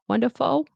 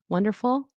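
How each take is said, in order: First: The L sounds like a W. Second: The L sounds like a clear L. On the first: The speaker calls it wrong. "It sounded like it was like a W" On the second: The speaker calls it right. "it should be wonderful with L"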